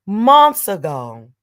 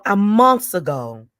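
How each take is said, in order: First: "Months ago" louder and slower, leaning on "Months"; emphatic repeat. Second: Said in the usual way. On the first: Real, not acted. Stressing to viewers she warned them, "Months" hit hard. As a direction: drive home "Months ago".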